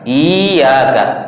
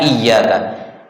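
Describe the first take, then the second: First: The first vowel is long and the y single. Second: The first vowel is short and the y doubled. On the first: The speaker calls it wrong. "I-nya dibaca panjang" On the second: The speaker calls it right. "Seharusnya iyyaka"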